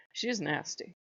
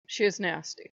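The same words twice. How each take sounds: First: Quiet. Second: Said in the usual way. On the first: Real, not acted.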